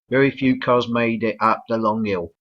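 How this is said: It is said in a London accent. "in uh, London English the L isn't even pronounced"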